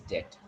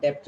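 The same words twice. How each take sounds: First: Low, softer "debt" as det; correct debt. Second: "debt" as dept, middle consonant sounded; wrong debt. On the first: Teacher correcting the mistake, debt with silent B. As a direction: drop the B in "debt", rhyme it with get. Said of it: "It's debt". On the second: Teacher rejecting the mistake, debt as dept. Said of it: "It is not debt at all". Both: Shown as a demonstration.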